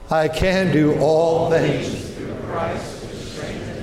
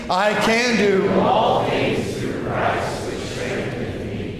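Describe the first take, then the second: First: It is read in a plain, calm way. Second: It is read loudly with lots of energy.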